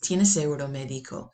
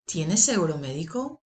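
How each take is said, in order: First: The voice falls at the end. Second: The voice rises at the end. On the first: It states a fact. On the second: It asks a yes-no question.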